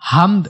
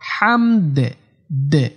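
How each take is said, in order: First: The final d stops flat with no echo. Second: The final d is released with a slight bounce. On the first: The speaker calls it wrong. "হামদ বলা যাবে না" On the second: The speaker calls it right. "লাস্টে দাল একটু কলকলা করতে হবে"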